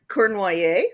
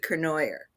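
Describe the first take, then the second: First: The name has its original French pronunciation. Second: The name has an English-style pronunciation. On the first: This is the family's original form of the name. "originally the name was Cor- Cournoyer, French Canadian" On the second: This is how the South Dakota branch says the name. "changed the pronunciation to Cournoyer"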